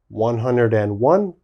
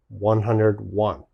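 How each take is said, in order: First: The word 'and' is said after 'hundred'. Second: No 'and' is said after 'hundred'. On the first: "British style again" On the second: "American style"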